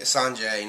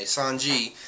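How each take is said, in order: First: "Sanjay" ending in "jay"; wrong name pronunciation. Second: "Sanji" ending in "jee"; corrected name pronunciation. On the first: Reviewer slipping on a character's name, "Sanjay" ending in "jay". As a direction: say "Sanjay" to rhyme its end with "day". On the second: Reviewer correcting his own slip, "Sanji" ending in "jee". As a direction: say "Sanji" to rhyme its end with "see". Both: Shown as a demonstration. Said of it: "not fucking Sanjay".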